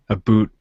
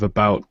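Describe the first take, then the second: First: "a boot" with an oo vowel in place of ow; "a boot" as the Canadian pronunciation of about. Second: Said in the usual way. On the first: Shown as a demonstration. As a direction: say "a boot" to rhyme with toot. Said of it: "I've noticed Canadians say". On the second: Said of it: "instead of".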